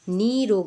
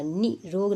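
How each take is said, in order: First: नी रोग with a stressed long "nee"; correct long-vowel demo. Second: नि रोग with a short "ni"; brief नि, then रोग; wrong short-vowel demo. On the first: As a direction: hold the ee in नी रोग. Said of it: "बड़ी की मात्रा है". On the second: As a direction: say नि रोग with a quick i. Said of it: "नि रोग नहीं होगा". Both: Shown as a demonstration.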